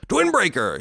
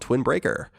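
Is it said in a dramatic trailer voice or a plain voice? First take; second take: dramatic trailer; plain. First: It is said in a dramatic movie-trailer voice. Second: It is said in a plain reading voice.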